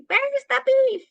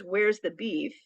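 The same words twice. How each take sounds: First: Put-on high, loud old-lady demand; imitated old-lady catchphrase, pitched way up; old ladies in an ad. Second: Said in the usual way. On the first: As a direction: cry it out like an old lady in a commercial. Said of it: "these old ladies that would pick up the bun and they would say". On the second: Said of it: "It wasn't the words".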